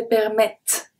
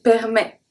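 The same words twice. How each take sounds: First: Permettre with the final T sounded; teacher showing the wrong permettre, T spoken. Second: Permet ending on the E sound, no T; right way. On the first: Teacher to learners, showing the mistake: T pronounced. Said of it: "I don't say permettre". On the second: Teacher to learners, correct form: silent T. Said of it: "The T is silent". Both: Shown as a demonstration.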